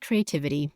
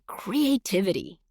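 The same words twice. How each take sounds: First: It is said flatly, without enthusiasm. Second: It is said with excitement and energy.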